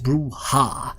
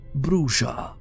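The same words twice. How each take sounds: First: The word is said with a Spanish-style pronunciation. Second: The word is said without a Spanish-style pronunciation. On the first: "a Spanish type of uh, pronunciation" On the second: "the Bruja clan is actually pronounced Bruja"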